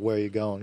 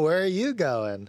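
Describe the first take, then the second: First: It is said in a threatening tone. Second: It is said in a friendly tone.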